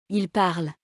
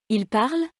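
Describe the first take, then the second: First: Parle falling in Il parle; falling statement. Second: Parle rising sharply in Il parle; rising question. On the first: Teacher demonstrating intonation descendante, falling statement on parle. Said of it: "Intonation descendante, constatation". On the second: Teacher demonstrating intonation montante, rising question on parle. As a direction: ask Il parle with the voice going up on parle. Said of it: "Intonation montante, question". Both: Shown as a demonstration.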